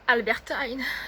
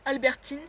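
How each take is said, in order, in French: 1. Il est prononcé avec un accent anglais. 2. Il est prononcé avec un accent français.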